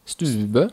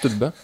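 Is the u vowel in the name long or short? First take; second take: long; short. First: The u vowel is long. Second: The u vowel is short. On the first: The speaker calls it right. "med lang U" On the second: The speaker calls it wrong. "ikke stubbe, som du har kalt den før"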